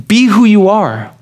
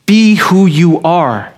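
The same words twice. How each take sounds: First: Weight moved to who; stress on who. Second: Slow, weight on Be of Be who you are; Be stressed, who you are trailing. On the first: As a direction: lift who in Be who you are. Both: Shown as a demonstration. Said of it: "distilled down into one simple principle".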